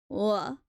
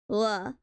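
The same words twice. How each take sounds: The two takes are said the same way.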